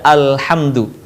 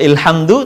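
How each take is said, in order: First: The word begins with an a vowel. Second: The word begins with an i vowel. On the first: The speaker calls it right. "baca hamzah wasol dengan harokat A" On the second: The speaker calls it wrong. "atau ilhamdu"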